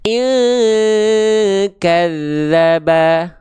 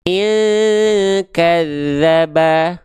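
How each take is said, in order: First: The nasal hum sounds far from 'ng'. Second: The nasal hum sounds far from 'ng'.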